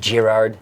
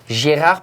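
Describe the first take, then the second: First: The final D sound is pronounced. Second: The final D sound is silent. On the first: The speaker calls it wrong. "it's not Girard" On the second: The speaker calls it right. "you won't have to pronounce the D at the end"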